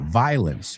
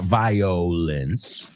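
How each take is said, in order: First: No 'o' vowel is heard after 'vi'. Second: An 'o' vowel is heard after 'vi'. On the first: The speaker calls it right. "no lo pronuncio en esta palabra" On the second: The speaker calls it wrong. "It's not violence"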